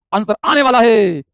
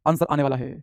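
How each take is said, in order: First: Slow, swelling announcement; drawn-out anticipation. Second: Lower, softer repeat; low aside. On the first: Teacher waiting for students' answers, drawn-out suspenseful call. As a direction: stretch it out to build suspense. Teasing while awaiting answers. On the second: Teacher waiting for students' answers, low soft aside. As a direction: drop it down almost to yourself. Same words, dropped back. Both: Real, not acted.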